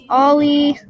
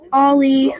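First: Loud, raised call of a name. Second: Put-on loud call for a lost child. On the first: Acted. Sibling searching for Ollie, calling loudly. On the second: Sibling calling for missing Ollie, loud. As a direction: shout his name across the park.

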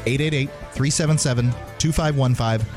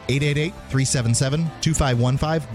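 The two takes are said the same way.

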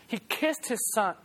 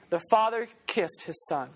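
First: "He kissed his son" said slowly and softer, each word weighted; slow, soft emphasis. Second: Said in the usual way. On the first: Shown as a demonstration.

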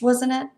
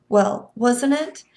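First: Said in the usual way. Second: Wasn't drawn out, rising into a question; slow doubting rise on wasn't. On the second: A narrator's reading. Winnie doubting herself, rising slow on wasn't. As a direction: stretch wasn't it slowly, rising at the end.

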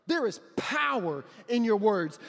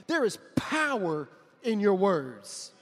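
First: Slow, stressing There again; repeated emphasis. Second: Slow, stressing There; emphatic. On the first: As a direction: restate it weighty. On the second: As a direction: press each word slowly. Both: Acted.

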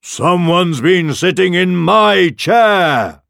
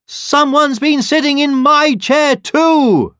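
First: Slow, loud roar with raised pitch; father bear roar. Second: Very high, loud, drawn-out Mama Bear; mother bear exclaiming. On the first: Father Bear finds his chair used, roaring. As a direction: roar it out slowly as Papa Bear. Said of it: "roared the father bear". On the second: Mother Bear finds her chair used too, exclaiming. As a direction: exclaim it high and slow, outraged. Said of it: "exclaimed the mother bear". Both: A narrator's reading.

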